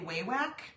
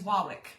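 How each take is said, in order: First: The first syllable sounds like 'way'. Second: The first syllable sounds like 'wah'. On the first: This is how most people say the name. The speaker calls it wrong. "most of us say Waywack" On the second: This is how the company says its own name. The speaker calls it right. "It's Wawick"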